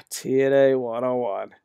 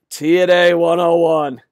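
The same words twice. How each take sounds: First: Resigned sigh. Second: Emphatic verdict. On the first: Repeats it with a sigh. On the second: Labels fans' tactic, then sighs it. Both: Real, not acted.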